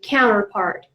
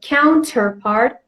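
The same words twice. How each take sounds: First: The middle T sound is dropped. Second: The middle T sound is clearly pronounced. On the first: "Americans mostly pronounce it this way" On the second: "if you prefer to pronounce the T sound"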